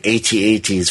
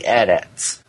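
First: "A T A Ts" said letter by letter; spelled-out letters. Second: "adats" said as one word, rhyming with hat hat. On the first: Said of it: "for some of you". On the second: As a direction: say "adats" as a word, not as letters. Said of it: "A T A Ts for some of you". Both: Shown as a demonstration.

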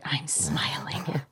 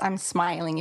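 First: Soft slow whisper, softer. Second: Said in the usual way. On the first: Real, not acted. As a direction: breathe it out slowly in a whisper. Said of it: "If you can't hear it".

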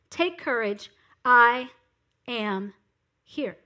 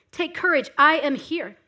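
First: "I ... am ... here" set apart word by word, falling away; weighty pauses between "I", "am" and "here"; deliberate pauses. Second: Said in the usual way. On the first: Shown as a demonstration.

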